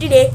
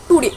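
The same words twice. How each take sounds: First: The first syllable is cut to a quick 't' sound. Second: The first syllable keeps a full 'to' vowel. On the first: "the American people say that today" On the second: "we always we say that today"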